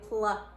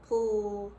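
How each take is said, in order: First: An extra uh vowel follows the consonants. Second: The consonants end with no vowel after them. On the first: The speaker calls it wrong. "I'm not saying pla. I'm not adding a uh sound" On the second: The speaker calls it right. "I'm just saying the one sound that these two letters make"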